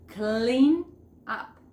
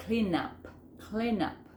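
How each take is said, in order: First: Said in the usual way. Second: "Clean up" run together as one word; linked words. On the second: Shown as a demonstration. Teacher showing learners how words join, linked. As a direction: slide the n of "Clean" straight into "up". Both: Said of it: "que uno la palabra".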